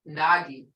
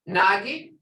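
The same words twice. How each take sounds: First: It is said with a plain statement-like tone. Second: It is said with a questioning tone. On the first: It means a thing. "Nagi is theme" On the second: It means what. "you can almost hear the question in the tone of my voice"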